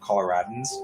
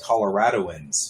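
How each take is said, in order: First: No 'o' syllable comes before the ending. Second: An extra 'o' syllable comes before the ending. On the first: The speaker is a local. The speaker calls it right. "There's no O" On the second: The speaker is not from the area. The speaker calls it wrong. "you can tell non-natives"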